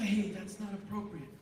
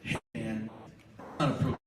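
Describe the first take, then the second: First: Soft, even reminder; calm quiet aside. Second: Low, calm word to a friend; calm quiet aside. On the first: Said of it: "Just say". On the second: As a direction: say it quietly, man to man. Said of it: "you can simply say". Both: Shown as a demonstration.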